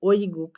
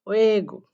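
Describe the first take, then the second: First: The first syllable sounds like 'oi'. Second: The first syllable sounds like 'we'. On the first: The speaker calls it wrong. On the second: The speaker calls it right.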